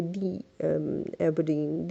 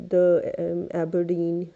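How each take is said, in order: First: THE said as "thee" before Aberdeen; vowel-sound article. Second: THE said as "thuh" before Aberdeen; wrong article sound. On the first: Teacher corrects the university name, THE as "thee". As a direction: say "thee", hesitate, then Aberdeen. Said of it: "You have to say". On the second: Teacher quotes a student's mistake, THE as "thuh". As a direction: say "thuh", hesitate, then Aberdeen. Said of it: "ये एक big mistakes होंगी". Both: Shown as a demonstration.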